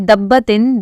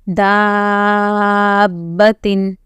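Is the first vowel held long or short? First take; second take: short; long. First: The first vowel is short, not elongated. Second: The first vowel is held long, fully elongated. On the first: The speaker calls it wrong. "if you say dabbatin, then there is the no meaning of the mud" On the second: The speaker calls it right. "We will first elongate the da to the fullest and then join the ba"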